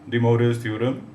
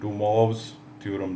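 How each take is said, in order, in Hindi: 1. नाम 'De Morris' जैसे बोला जाता है। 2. नाम 'De Mwahv' जैसे बोला जाता है।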